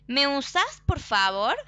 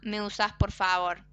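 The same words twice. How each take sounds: First: It is said as a question, rising at the end. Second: It is said as a statement, flat at the end.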